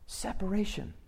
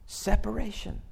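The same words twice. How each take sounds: First: Repeated much softer, falling; a soft echo of Separation; quiet echo. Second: Said in the usual way. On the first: Shown as a demonstration. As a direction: let the word Separation. drop away to a hush.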